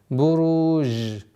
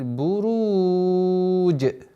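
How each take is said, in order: First: The final consonant is a soft 'zh' sound. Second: The final consonant is a 'j' with release. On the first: The speaker calls it wrong. "Это является грубейшей ошибкой" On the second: The speaker calls it right. "мы применяем правила, правила калькаля"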